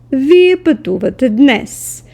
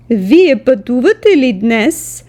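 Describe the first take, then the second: First: Said in the usual way. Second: „Вие пътувате ли днес?“ with the pitch going up at the end; rising question tune. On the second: Shown as a demonstration. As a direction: lift the voice on днес as a yes-no question. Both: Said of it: "the intonation slightly goes up".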